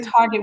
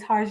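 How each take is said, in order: First: It ends with a plain hard 'get' sound. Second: It ends with a soft French 'zhay' sound. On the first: This is the ordinary way people say it. "we don't say Target" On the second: This is a fancy, posh way to say it. "We say we say Target"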